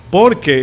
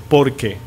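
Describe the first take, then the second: First: "por qué" punched, higher and louder, accent on qué; stress on qué. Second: Said in the usual way. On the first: Shown as a demonstration. Pastor teaching grammar to the congregation, stressing "qué". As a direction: hit "qué" hard as a question word. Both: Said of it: "¿Por qué es con acento en la E?".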